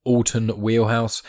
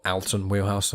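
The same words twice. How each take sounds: First: Alton opened with an AWL sound, "AWL-ton"; own-accent pronunciation. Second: Alton opened with a short A, "AL-ton"; corrected name pronunciation. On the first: Host naming a guest in own accent, Alton said as "AWL-ton". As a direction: say Alton with a rounded "awl" first syllable. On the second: Host correcting a guest's name for own accent, Alton said as "AL-ton". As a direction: say Alton with "al" as in pal. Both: Real, not acted. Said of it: "uh, my accent".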